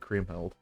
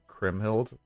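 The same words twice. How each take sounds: First: The first syllable sounds like the word cream. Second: The first syllable does not sound like cream. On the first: "She's made of cream" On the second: "that's boring"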